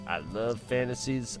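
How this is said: It is said in a southern accent.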